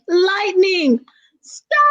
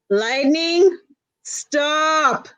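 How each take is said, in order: First: It is said in a very loud voice. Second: It is said only a little louder.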